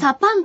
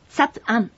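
First: The vowels merge into a contracted sa-pan. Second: Each syllable is said separately, as sa-pu-an.

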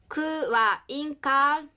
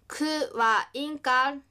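First: The ka syllable is lengthened and stressed. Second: The ka syllable is short and not stressed.

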